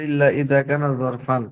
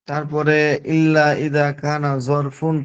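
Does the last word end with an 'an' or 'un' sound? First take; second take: an; un. First: The last word ends with an 'an' sound. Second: The last word ends with an 'un' sound. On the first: The speaker calls it right. "ওটা হবে" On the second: The speaker calls it wrong. "ইল্লা ইদা কানা জরফুন পড়ছেন"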